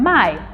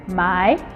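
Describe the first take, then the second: First: The word starts high and drops sharply. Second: The word is said with the third tone. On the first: It means to sell. "another one is the fourth tone. It just from up and drops" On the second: It means to buy. "one is third tone"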